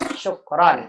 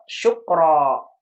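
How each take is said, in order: First: The word ends with a final n sound. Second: The word ends on a vowel, without n. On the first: The speaker calls it right. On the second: The speaker calls it wrong. "nggak boleh jadi"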